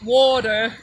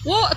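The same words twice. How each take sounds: First: It is said in an American accent. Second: It is said in a British Derbyshire accent.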